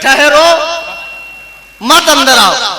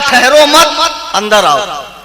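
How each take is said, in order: First: The pause comes after the word 'ठहरो'. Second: The pause comes after the word 'मत'.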